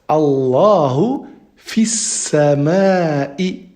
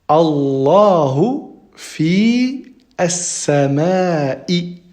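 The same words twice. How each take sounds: First: The words are linked, running fi into sama. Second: The words are said separately, without linking.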